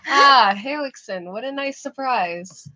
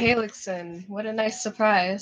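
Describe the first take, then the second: First: It is said with lively emotion. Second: It is said flatly, without emotion.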